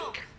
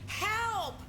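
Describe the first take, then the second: First: It is called out at normal loudness. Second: It is called out much louder.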